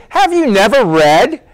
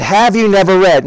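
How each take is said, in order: First: "Have you never read?" higher and slower with a rise on "Have"; teasing dig. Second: Said in the usual way. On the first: Shown as a demonstration. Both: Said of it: "it's a little bit of a dig".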